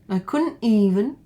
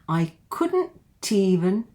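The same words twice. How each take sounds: First: The T is dropped entirely. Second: The T links into the next word. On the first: "you can also drop the T if you want to" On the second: "it just links to this one here, the T"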